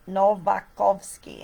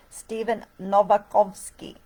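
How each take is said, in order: First: Novakovsky in a light Polish accent, slow and careful; a touch of Polish accent on Novakovsky. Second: Said in the usual way. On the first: Shown as a demonstration. Vlogger names her collaborator in mock Polish accent. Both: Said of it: "in my best Polish accent".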